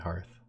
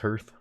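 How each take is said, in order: First: It is said like the first part of Hearthstone. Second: It is said unlike the first part of Hearthstone. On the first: The speaker calls it right. "when you say the game Hearthstone, you say" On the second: The speaker calls it wrong. "I had misspoken as well for a long time as"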